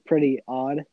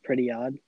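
First: There is a pause between the two words. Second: The two words run together without a pause.

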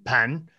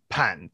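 First: The pitch rises from mid to high. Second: The pitch dips low and then rises. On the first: "Is it inside the entrance or in the kitchen?" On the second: "third tone"

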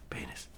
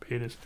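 First: It is said very quietly. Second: It is said a bit more loudly.

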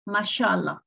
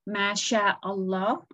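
First: No glottal stop is heard before 'Allah'. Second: A glottal stop is heard before 'Allah'. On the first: This is how people usually say it. "We just say Masha'Allah. So as if the Hamza does not exist" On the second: This is the careful reading as written. "if you want to read it correctly, you would say Masha'Allah"

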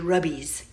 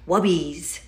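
First: The word begins with an R sound. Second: The word begins with a W sound. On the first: The speaker calls it right. "it's actually rubbies" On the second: The speaker calls it wrong. "it's really not pronouncing it properly"

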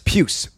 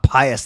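First: The first part sounds like 'pew'. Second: It sounds like the word 'pious'. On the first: The speaker calls it right. "But it's Pius, like Pius, or don't say this, but like Pew" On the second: The speaker calls it wrong. "it's not Pius like, you know, church and good morals"

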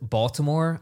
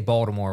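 First: The middle consonant sounds like a T. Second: The middle consonant sounds like a D.

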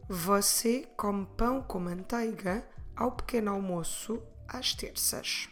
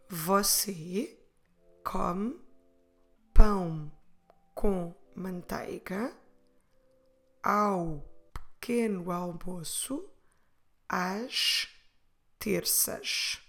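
First: The sentence is spoken at a faster pace. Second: The sentence is spoken at a slower pace.

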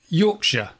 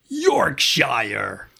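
First: Yorkshire is pronounced the British way. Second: Yorkshire is pronounced the American way. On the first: The speaker calls it right. "It's Yorkshire" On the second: The speaker calls it wrong. "not Yorkshire"

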